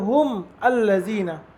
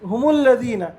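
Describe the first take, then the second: First: The mim stops, then the alif sounds separately. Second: The mim runs straight into the following word. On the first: The speaker calls it wrong. "মিমকে সে জজম দিয়েছে, হুম বলেছে। ... আলিফকে সে ইজহার করে পড়েছে" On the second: The speaker calls it right. "আমরা মিলিয়ে কিভাবে পড়ছি"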